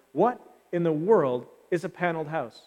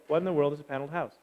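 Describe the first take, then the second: First: Said in the usual way. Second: Fast audience echo. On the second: Shown as a demonstration. Congregation rattling off the question quickly. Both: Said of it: "Say yes".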